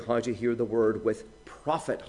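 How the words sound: The word how is stressed. The point is the manner of listening. "how we're to hear exactly"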